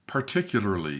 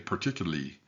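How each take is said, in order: First: The word is said with every syllable clearly pronounced. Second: The word is said quickly with syllables run together. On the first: The speaker calls it right. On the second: The speaker calls it wrong.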